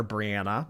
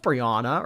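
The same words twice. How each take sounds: First: Brianna said bree-AN-uh; short-A Brianna. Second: Brianna said bree-AH-nuh; broad-A Brianna. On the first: Streamer offers another reading, Brianna as bree-AN-uh. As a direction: say Brianna with the "a" of "cat". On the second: Streamer tries a viewer's name, Brianna as bree-AH-nuh. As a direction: say Brianna with an "ah" in the middle. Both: Shown as a demonstration. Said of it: "Not sure how you pronounce it".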